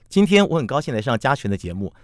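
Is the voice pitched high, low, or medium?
medium. It is spoken at a medium pitch.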